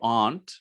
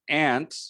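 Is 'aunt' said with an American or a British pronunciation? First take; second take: British; American. First: The word has a British pronunciation. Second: The word has an American pronunciation. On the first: "which is uh, British English" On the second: "which is a correct pronunciation in American English"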